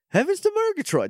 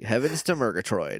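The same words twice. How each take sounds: First: The voice is theatrical and highly exaggerated. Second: The voice is flattened with little pitch movement. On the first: The speaker calls it wrong. "okay, do Snagglepuss" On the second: The speaker calls it right. "Flatten it out a little bit"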